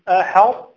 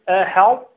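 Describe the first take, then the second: Both takes have the same delivery.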